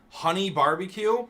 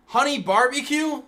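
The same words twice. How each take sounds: First: "Honey barbecue?" with a high, louder rising question; incredulous question. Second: "Honey barbecue?" yelled much higher and louder; outraged shout. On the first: Streamer reaching the sauce he hates, in disbelief. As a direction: ask "Honey barbecue?" as if you can't believe it. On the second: Streamer repeating the hated sauce to chat, in a shrieking outrage. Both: Real, not acted.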